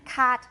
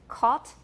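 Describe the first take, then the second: First: It is said with an American vowel. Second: It is said with a British vowel. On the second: "In British, it's"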